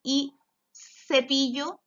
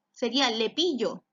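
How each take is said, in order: First: Said in the usual way. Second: Lepillo said with an L where cepillo should start with s; wrong first sound. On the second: Shown as a demonstration. Teacher showing a child the wrong start, lepillo for cepillo. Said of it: "¿Se llama lepillo?".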